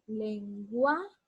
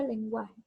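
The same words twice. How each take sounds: First: "lenguaje" broken up, with a long raised "gua"; stress on GUA. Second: Said in the usual way. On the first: Shown as a demonstration. Teacher marking the tonic syllable for students, "lenguaje" drawn out on "gua". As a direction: stretch "lenguaje" as len-GUAAA-je, pausing before the last syllable. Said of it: "entonces la sílaba gua". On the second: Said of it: "Aquí está la mayor fuerza de voz".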